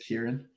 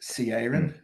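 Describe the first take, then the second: First: The name begins with a k sound. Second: The name begins with a ch sound. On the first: This is how the name is really said. The speaker calls it right. "but it's a k" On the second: This is how most people guess the name. The speaker calls it wrong. "most people guess"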